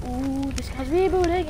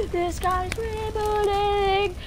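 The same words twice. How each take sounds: First: Said in the usual way. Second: High, slow drawn-out scream; hammed-up alarm scream; screaming van. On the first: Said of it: "they're like". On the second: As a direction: wail it like a siren across the map. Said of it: "they start screaming like".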